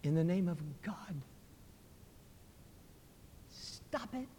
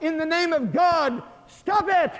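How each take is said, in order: First: Faint dying cry, very soft; feeble voice. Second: Very high, loud cry; calling out. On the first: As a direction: gasp it out weakly with your last strength. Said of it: "he cried out in a feeble voice". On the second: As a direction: shout it out to stop the fight. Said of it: "Telemachus called out". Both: Acted.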